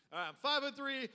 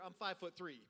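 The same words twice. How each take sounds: First: Five-foot-three said louder and higher, punched; louder emphatic five-foot-three; stressed repeat. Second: Said in the usual way. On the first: Shown as a demonstration. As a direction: hammer the small height home.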